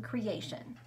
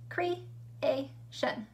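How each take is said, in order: First: Said in the usual way. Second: "Creation" split as cre, a, tion, with pauses; chunked into syllables. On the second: Shown as a demonstration. Teacher showing pupils three syllables, "Creation" chunked with gaps. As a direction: say "Creation" in three separate beats. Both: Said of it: "how the word is chunked out".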